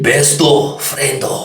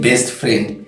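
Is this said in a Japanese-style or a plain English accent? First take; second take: Japanese-style; plain English. First: Extra vowels are added, Japanese-style. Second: It is said in plain English pronunciation. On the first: "they say English, but in a Japanese tone" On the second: "instead of saying best friend"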